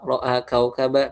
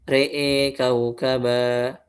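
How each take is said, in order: First: The vowels after r and hamza are plain open a. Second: The vowels after r and hamza lean toward e. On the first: This is the standard reading. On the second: This is the alternate transmitted reading. "kita mengimalakan ro sama hamzah sama alifnya"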